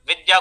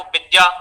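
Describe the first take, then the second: First: Said in the usual way. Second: विद्या said as bidya. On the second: Shown as a demonstration. Teacher showing Utkal students' fault, विद्या as bidya. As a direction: start विद्या with a 'b' in place of 'v'. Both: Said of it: "वकार को बकार की तरह उच्चारण".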